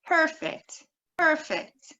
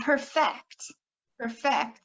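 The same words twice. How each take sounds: First: PERFECT as PER-fect, high stressed PER; first-syllable stress. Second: PERFECT as per-FECT, stress on FECT; short first syllable, lean on the end of "perfect"; second-syllable stress. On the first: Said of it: "stress can change the meaning". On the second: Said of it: "has another meaning". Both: Shown as a demonstration.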